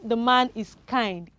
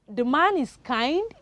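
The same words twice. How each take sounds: First: The voice falls at the end. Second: The voice rises at the end.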